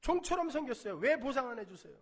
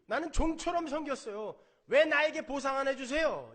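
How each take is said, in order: First: Loud, high mock grievance; resentful complaint. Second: Loud, high indignant demand; resentful complaint. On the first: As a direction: press the demand again, indignant. Elder son's complaint repeated. (큰아들이 아버지께 보상을 요구하며 높고 크게 따지듯) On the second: Retold or imitated. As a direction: voice the elder son's grievance. Preacher voices resentful elder son. (종처럼 섬겼는데 보상을 달라는 큰아들의 억울한 항의)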